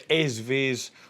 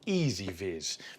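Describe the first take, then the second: First: The first part is a short 'ez' sound. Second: The first part sounds like the word 'easy'.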